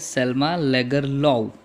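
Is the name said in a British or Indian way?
British. It ends without an f sound, British style.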